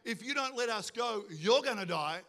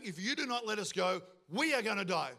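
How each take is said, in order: First: YOU'RE punched as the threatened one; emphasis lands on YOU'RE, before "gonna die"; stress on you're. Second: WE stressed, set apart from the rest; emphasis lands on WE, before "are gonna die". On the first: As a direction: hit "you're", pointing the threat at the listener. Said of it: "the Israelites aren't saying". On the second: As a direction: hit "we" as the ones in danger. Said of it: "But the Israelites are saying". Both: Shown as a demonstration.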